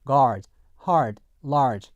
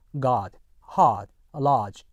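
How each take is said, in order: First: GUARD, HARD, LARGE with the R clearly sounded; American R pronunciation. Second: GUARD, HARD, LARGE with no R, just a long ah; British silent R. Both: Shown as a demonstration. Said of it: "영국 표준 영어에서는요".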